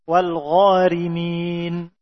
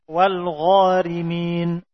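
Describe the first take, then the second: Both takes have the same delivery.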